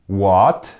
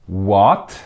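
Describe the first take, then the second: Both takes have the same delivery.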